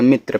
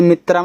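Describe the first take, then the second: First: Said in the usual way. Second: "मित्रा" with a full long "aa" at the end; mispronounced final vowel. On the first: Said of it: "मित्र पढ़िएगा". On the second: Shown as a demonstration. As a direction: stretch the ending of "मित्रा" into a clear "aa". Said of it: "इसे मित्रा मत पढ़िएगा".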